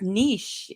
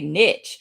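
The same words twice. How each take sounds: First: It has the French pronunciation, unlike hitch. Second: It rhymes with hitch, a short vowel. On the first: "the actual word ... is niche. It is French" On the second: "in the South we kind of say niche, like hitch"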